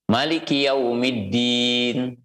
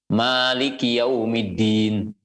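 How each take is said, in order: First: The vowel after the m is short. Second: The vowel after the m is long.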